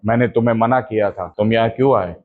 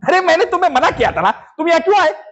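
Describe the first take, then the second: First: It is delivered plainly, without comic exaggeration. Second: It is delivered with over-the-top comic exaggeration.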